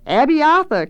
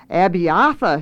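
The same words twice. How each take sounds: First: High, loud answering cry; high-pitched eager shriek; scream. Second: "Abiatha" slowly, middle A stressed; "Abiatha" spelled out by weight on its middle A; stress on central A. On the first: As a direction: scream the name back as a chorus. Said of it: "came the scream again". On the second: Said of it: "he repeated slowly, stressing the central A". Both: A narrator's reading.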